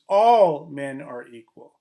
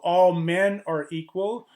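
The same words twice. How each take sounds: First: The stress falls on the word all. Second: The stress falls on the word men. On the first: Men is meant inclusively, covering everyone. "If the stress is on the all" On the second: Only males are meant, leaving out a gender. "if the stress is on the men"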